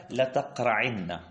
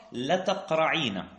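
First: "لتقرعن" slowly, with a doubled final nun; contracted emphatic form. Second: "لتقرعين" slowly, long ee and single n; uncontracted original form. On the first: Teacher citing the poet's word, "لتقرعن" slowly with doubled n. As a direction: draw out "لتقرعن", leaning on the doubled n. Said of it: "محل التنظير في قول الشاعر". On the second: Teacher showing the original form, "لتقرعين" slowly with long ee. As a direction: stretch "لتقرعين" with a long ee before na. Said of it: "فإن الأصل". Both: Shown as a demonstration.

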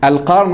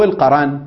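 First: القرن said "al-qarn", no vowel between r and n; القرن with a closed ra, QARN; sukun on the ra. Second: القرن said "al-qaran", an a between r and n; القرن in two open-voweled syllables, qa-ran; fatha on the ra. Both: Shown as a demonstration. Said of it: "بسكون الراء وفتحها".

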